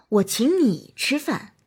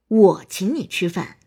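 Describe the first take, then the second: First: The stress is on the word 你. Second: The stress is on the word 我. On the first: "突出你" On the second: "突出我"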